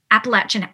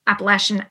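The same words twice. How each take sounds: First: "Appalachian" said as app-uh-LATCH-un; corrected pronunciation. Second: "Appalachian" said as app-uh-LASH-un; mistaken pronunciation. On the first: Actor retelling a call to Luke, fixing "Appalachian" to app-uh-LATCH-un. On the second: Actor retelling a call to Luke, slipping on "Appalachian" as app-uh-LASH-un. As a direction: say "Appalachian" with sh, no ch sound. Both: Retold or imitated. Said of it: "I think you're supposed to say".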